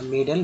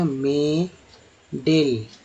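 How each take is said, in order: First: The second syllable has a reduced 'uh' vowel. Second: The second syllable has a full 'e' vowel. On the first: The speaker calls it right. "मेडल में अ पढ़ा जा रहा है" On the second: The speaker calls it wrong. "इसको मेडेल"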